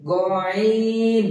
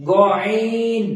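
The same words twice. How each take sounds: First: গয়ন held very long from the upper throat; slow held গয়ন; drawn-out letter demo. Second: গয়ন loud and gargled from the upper throat; louder throaty গয়ন; throaty letter demo. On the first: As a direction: stretch গয়ন slowly like a chant. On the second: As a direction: push গয়ন out from the top of the throat. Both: Shown as a demonstration. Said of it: "গয়নটা বলার চেষ্টা করি এবার".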